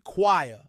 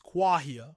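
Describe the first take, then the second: First: The word rhymes with inquire. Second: The word does not rhyme with inquire. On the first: The speaker calls it wrong. "Americans often say choir, as in both the metal and the verb to inquire" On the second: The speaker calls it right. "the correct pronunciation is choir"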